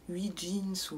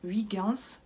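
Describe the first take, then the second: First: The name sounds like 'huit' plus English 'jeans'. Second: The name is said with a French ending. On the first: The speaker calls it wrong. "ce que j'appelais huit jeans ou je ne sais pas quoi" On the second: The speaker calls it right. "en fait, ça s'appelle Huygens"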